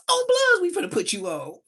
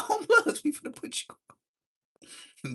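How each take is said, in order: First: Very high, loud excited shout; hyped yell. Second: High squeal breaking into laughter; laughing. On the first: Smiley hyping up the young teller, high excited shout. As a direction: yell it out, thrilled to put him in. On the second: Teller retelling Smiley's promise while laughing high. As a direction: say it again, cracking up halfway. Retold line again, laughing. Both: Retold or imitated.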